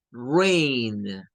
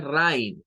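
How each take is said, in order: First: "rain" with a long "ey" vowel, drawn out; correct pronunciation. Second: "rain" with an "ai" vowel, like "rine"; wrong pronunciation. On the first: Teacher correcting the spelling trap for learners, correct pronunciation. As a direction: stretch "rain" with the vowel of "day". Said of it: "pero el sonido es ey". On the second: Teacher showing learners what it is not, mispronunciation. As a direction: say "rain" as spelt, rhyming with "mine". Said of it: "Nótese que no es rain". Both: Shown as a demonstration.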